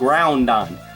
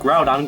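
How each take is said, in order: First: It is said with an n before the d. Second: It is said without an n before the d. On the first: The speaker calls it wrong. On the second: The speaker calls it right.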